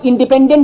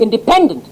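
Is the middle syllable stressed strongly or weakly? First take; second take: weakly; strongly. First: The middle syllable is not strongly stressed. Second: The middle syllable is strongly stressed. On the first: This is how people here say it. "हम आप independent, independent कहते हैं" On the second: This is how English people say it. "उसमें जोर पी पर देते हैं, बीच वाली पर"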